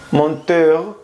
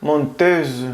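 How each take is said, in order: First: Menteur with a nasal men and a uvular r; Menteur, rising; French menteur. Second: Menteuse ending in a z sound; menteuse, falling; French menteuse. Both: Shown as a demonstration.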